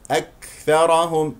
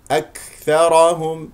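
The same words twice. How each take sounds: No difference in how they are said.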